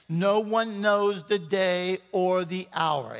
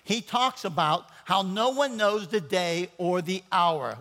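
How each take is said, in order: First: No one knows the day or the hour, said slowly, each word weighted; slow emphatic repeat. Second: Said in the usual way. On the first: Shown as a demonstration. Pastor repeating the verse so the church catches it, slow and weighty. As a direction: drive the verse home slowly. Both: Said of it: "Let me say that again".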